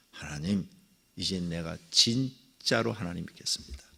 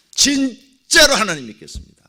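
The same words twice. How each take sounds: First: Quiet vow. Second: 진짜로 하나님 믿겠습니다 said high and loud; loud resolute promise; emphatic vow. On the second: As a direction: declare 진짜로 with force. Repeated vow, louder. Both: Retold or imitated.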